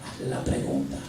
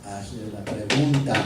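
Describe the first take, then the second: First: Voiceless whisper of the command; whispered inner voice. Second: Slow, firm command; firm inner voice. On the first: God's voice nudging the pastor again, whispered. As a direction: breathe the order in a whisper. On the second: God's voice telling the pastor, slow and firm. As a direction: lay down the order slowly. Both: Retold or imitated. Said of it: "esa voz espiritual me dice".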